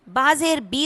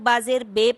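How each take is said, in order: First: The final syllable ends in an 'ee' sound. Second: The final syllable ends in an 'ay' sound. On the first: The speaker calls it right. "बाजेर बी होता है" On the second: The speaker calls it wrong. "बहुत से लोग बाजेर बे पढ़ देते हैं"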